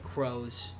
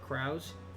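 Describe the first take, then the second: First: The name sounds like the word 'crows'. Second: The name does not sound like 'crows'. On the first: The speaker calls it right. "But it's like Crows" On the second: The speaker calls it wrong. "I think I said Kraus before"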